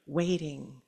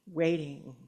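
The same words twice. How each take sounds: The two takes are said the same way.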